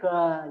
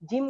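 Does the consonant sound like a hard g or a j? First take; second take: hard g; j. First: It starts with a hard g sound. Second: It starts with a soft j sound. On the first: The speaker calls it wrong. "Kebanyakan ngucapinnya kayak ga" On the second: The speaker calls it right. "Jim gini"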